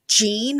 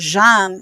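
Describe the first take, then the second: First: The word starts with a hard J sound. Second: The word starts with a soft J sound. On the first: "Jean with a hard J" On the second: "Jean with the soft J"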